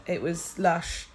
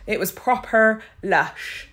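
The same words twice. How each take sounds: First: Said in the usual way. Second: "proper" stressed, louder and slow, falling; emphatic. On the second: Real, not acted. Thanking viewers for kind messages, with emphatic warmth. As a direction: lean into "It was proper lush." with a slow fall. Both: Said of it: "repeats with more emphasis".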